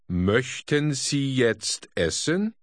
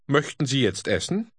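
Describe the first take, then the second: First: It is said slowly and carefully. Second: It is said fast, conversationally.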